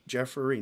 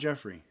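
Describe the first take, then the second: First: The name is said with three syllables. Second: The name is said with two syllables. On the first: The speaker calls it right. "It's three syllables, folks. ... I need that hard R" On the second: The speaker calls it wrong.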